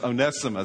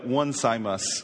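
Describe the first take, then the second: First: It does not begin with the word 'one'. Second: It begins with the word 'one'. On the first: The speaker calls it right. "but it's Onesimus" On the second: The speaker calls it wrong. "It looks like one Simus"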